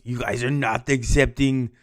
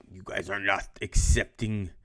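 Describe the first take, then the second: First: Put-on a second try at the Russian accent, a bit fuller; lightly hammed Russian accent. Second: Mock Russian accent, lightly put on; Stalin in a teacher's bad Russian accent. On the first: Teacher redoing Stalin for the class in a mock Russian accent. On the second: Teacher imitating Stalin to the class in a mild Russian accent. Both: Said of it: "It's my best Russian voice".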